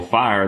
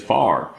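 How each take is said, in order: First: The word is said in a standard accent. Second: The word is said in a Southern accent. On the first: "instead of saying" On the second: "they said far"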